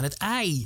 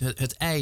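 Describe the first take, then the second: First: The ei vowel is a broad, wide diphthong. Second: The ei vowel is a plain, standard diphthong. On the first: This is how the young generation says it. "Die hebben echt zo'n hele ei. Het klinkt bijna Rotterdams" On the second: This is how older speakers say it. "die zeggen dus niet het ei"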